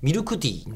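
The ku vowel is fully voiced, Kansai style.

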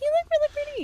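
It is said in a really high voice.

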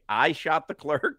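The voice rises at the end, like a question.

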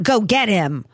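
It sounds confident and affirmative.

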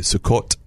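It is said in Sephardic Hebrew, ending in t.

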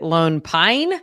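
The stress falls on the word Pine. "you hit Lone Pine and you like really enunciated it"

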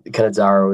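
The name is said with an Australian pronunciation. "I go with Cannizzaro as well"

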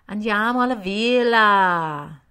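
It is said with a whiny, lilting regional cadence.

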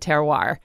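It is said with an American pronunciation. The speaker calls it wrong. "But us dumb Americans say terroir"

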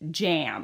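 It is said with an English accent.

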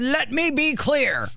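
It is said in a forceful, assertive way. The speaker calls it wrong. "He didn't say it like that"

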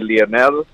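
It is said with a Spanish pronunciation.

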